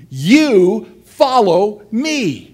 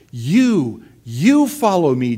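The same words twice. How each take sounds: First: "You" stressed hard, slow and higher; Jesus to Peter, "You" weighted, slow and louder; emphasis on you. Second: "You" leaned on, a bit louder; Jesus repeating, "You" stressed. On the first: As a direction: lean hard on "You", then slowly "follow me". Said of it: "he puts the emphasis on the you". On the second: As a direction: land on "You", then "you follow me". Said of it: "Jesus says". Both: Acted.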